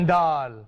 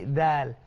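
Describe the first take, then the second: First: The d is hard, like a Malay d. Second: The d is soft and light. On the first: The speaker calls it wrong. "Jangan dal. Jadi kacang dal" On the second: The speaker calls it right. "mesti dal"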